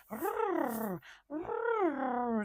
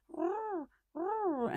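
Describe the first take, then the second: First: Small imitated kitten growl, a bit higher; mock hackles-up little growl. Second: Much higher squeaky mock growl; tiny kitten trying to sound fierce. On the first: Tiny kitten growling at the house cat, imitated as a small mock growl. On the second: Kitten bristling at older cat Robbie, a much higher squeaky mock growl. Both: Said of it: "she would growl as a little tiny kitten".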